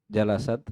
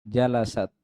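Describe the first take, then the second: No difference in how they are said.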